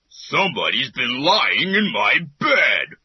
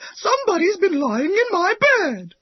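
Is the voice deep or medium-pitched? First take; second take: deep; medium-pitched. First: It is said in a deep, big voice. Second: It is said in a medium-pitched voice. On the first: "he said in his great big voice" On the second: "she cried in her middle-sized voice"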